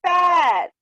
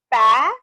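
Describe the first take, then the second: First: "पैर" long, high, loud and falling; joined word. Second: "पै" drawn out, rising and loud; split reading. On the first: Teacher leading the class along, "पैर" loudly blended. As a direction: call out "पैर" as one stretched word. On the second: Teacher leading the class along, "पै - र" in loud pieces. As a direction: sound out the start of "पैर" separately. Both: Shown as a demonstration. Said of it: "मेरे साथ साथ आप फिर से बोलिए".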